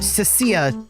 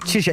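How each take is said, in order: First: The name is said fully as Cecilia. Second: The name is said as a short Chisha. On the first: The speaker calls it right. "it's just, just Cecilia" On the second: The speaker calls it wrong. "I keep saying Chisha"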